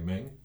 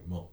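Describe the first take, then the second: First: It has an 'e' vowel and ends in 'ng'. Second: It has an 'o' vowel and ends in 'n'. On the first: The speaker calls it wrong. "which I think looks to me like Meng" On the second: The speaker calls it right. "But it's more pronounced like Mon"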